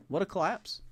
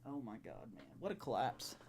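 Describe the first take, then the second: First: Incredulous repeat, rising. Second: Muttered under the breath in disbelief; soft, hollow disbelief; stunned murmur. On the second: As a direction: say it almost to yourself, dazed. Stunned after season-ending loss. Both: Real, not acted.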